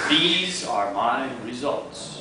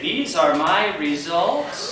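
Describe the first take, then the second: First: It is said in a low tone. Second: It is said in a high tone. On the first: The results are not open to doubt. The speaker calls it right. "You can use the low tone when you don't want people to doubt" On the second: The speaker sounds unsure the results are theirs. The speaker calls it wrong. "are they really your results?"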